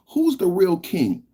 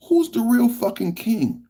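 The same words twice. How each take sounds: First: Said in the usual way. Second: "fucking" hit much higher, taunting; escalated taunt, "fucking" hit high; stress on fucking. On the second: Acted. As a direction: push "fucking" up hard in pitch.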